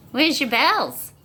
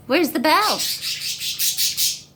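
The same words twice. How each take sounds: First: Said in the usual way. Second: Very slow and much higher, stretched out; a long teasing croon; drawn-out singsong. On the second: Acted. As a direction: sing the question out long to the dog. Coaxing dog, drawn-out repeat.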